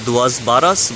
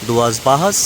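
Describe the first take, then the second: First: The name is read as it is spelled. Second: The name is said the local way. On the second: "it's pronounced as"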